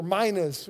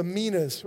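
First: Minas said MY-nuhz, long i first; first vowel of minas as in "my". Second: Minas said MEE-nuhz, long ee first; first vowel of minas as in "see". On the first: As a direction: say minas with an eye sound, MY-nuhz. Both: Shown as a demonstration. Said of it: "however you want to say it".

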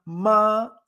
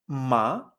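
First: "ma" held high and level; high first tone. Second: "ma" sliding upward; rising second tone. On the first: Teacher recalling the word for mother, "ma" high and level. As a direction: sustain "ma" high without a glide. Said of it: "era mamá". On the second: Teacher contrasting it with mother, "ma" rising. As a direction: lift "ma" like a question. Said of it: "solo con este cambio de". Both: Shown as a demonstration.

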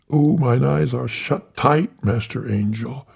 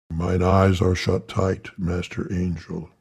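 First: High, eager obedient reply; high fawning reverend voice; Tiny Tillman voice. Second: Said in the usual way. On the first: Acted. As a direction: pitch it up like the little reverend. Tiny obeying the angel.

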